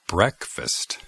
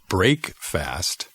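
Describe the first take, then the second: First: The first syllable sounds different from break. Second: The first syllable sounds like the word break. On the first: The speaker calls it right. "pronunciamos la palabra break diferente en esta palabra" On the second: The speaker calls it wrong. "No digo break fast"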